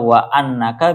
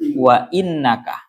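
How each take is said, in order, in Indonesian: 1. Kata setelah 'wa' diawali dengan vokal 'a'. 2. Kata setelah 'wa' diawali dengan vokal 'i'. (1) "menggunakan fathahnya hamzah. Berarti bacanya annaka" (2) "dengan kasrahnya hamzah"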